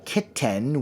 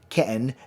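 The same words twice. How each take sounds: First: The middle T is sounded as a clear T. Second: The middle T is a glottal stop. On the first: "a lot of times we don't say kitten" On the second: "The T actually occurs here. That's your glottis opening and closing"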